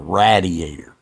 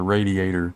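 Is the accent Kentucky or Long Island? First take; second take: Long Island; Kentucky. First: It is said with a Long Island accent. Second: It is said with a Kentucky accent.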